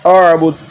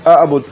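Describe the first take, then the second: First: The word begins with a pharyngeal throat sound. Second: The word begins with a plain glottal stop. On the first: The speaker calls it right. "इसको पढ़ना है आबुद" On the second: The speaker calls it wrong. "आप हमजा को पढ़ रहे हैं"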